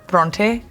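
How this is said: It is said with a Punjabi-style pronunciation. "Punjabi pronounce it"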